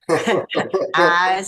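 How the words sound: The word is said in a Kentucky accent. This is how people there say it. "when they say eyes"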